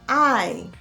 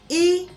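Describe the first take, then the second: First: It is said as the letter name, like eye. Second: It is said as the letter's short phonic sound. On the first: "The letter I is pronounced as I" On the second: "The phonic sound of letter I is I"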